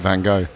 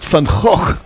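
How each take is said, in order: First: The name is said with an American pronunciation. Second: The name is said with a Dutch pronunciation. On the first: "Americans tend to pronounce it" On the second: "if you did the proper Dutch, it would be"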